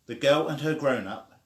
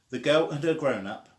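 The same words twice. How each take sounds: The two takes are said the same way.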